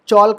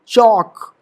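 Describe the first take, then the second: First: The L sound is pronounced. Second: The L sound is left out. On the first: The speaker calls it wrong. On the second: The speaker calls it right.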